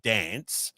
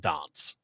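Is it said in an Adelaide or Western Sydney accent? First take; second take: Western Sydney; Adelaide. First: It is said in a Western Sydney accent. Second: It is said in an Adelaide accent.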